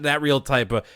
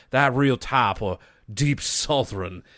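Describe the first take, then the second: First: Said in the usual way. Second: Slow Deep South drawl; imitated Deep South accent, drawn out; deep southern accent. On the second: Shown as a demonstration. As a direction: stretch it into a Southern "tahp". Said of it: "deep southern, uh, type of accent".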